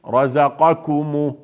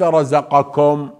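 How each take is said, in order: First: The ku syllable is light, not emphatic. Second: The ku syllable is heavy and emphatic. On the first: The speaker calls it right. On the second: The speaker calls it wrong.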